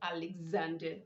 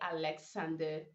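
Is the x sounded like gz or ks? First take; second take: gz; ks. First: The x sounds like gz. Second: The x sounds like ks. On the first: The speaker calls it right. "you go Alexander" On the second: The speaker calls it wrong. "you don't say Alexander"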